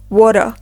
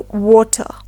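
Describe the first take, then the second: First: The middle T sounds like a soft D. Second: The middle T is clearly pronounced as T. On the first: "In American English, we will say water with the soft T sound" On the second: "while in British English, we will say water"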